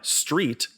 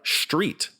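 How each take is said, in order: First: The word begins with a plain s sound. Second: The word begins with a sh sound.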